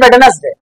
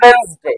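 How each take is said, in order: First: It is said as three syllables, wed-nes-day. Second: It is said as two syllables, wenz-day. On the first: The speaker calls it wrong. "ज्यादातर लोग इसको पढ़ते हैं वेडनेसडे, तो वेडनेसडे पढ़ना गलत है" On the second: The speaker calls it right. "ये होता है वेंसडे"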